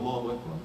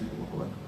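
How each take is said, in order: First: The phrase is shouted loudly. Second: The phrase is said softly. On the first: This is not how one prays alone. The speaker calls it wrong. "you don't scream out" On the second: Only the person praying hears it. The speaker calls it right. "That every person can hear themselves"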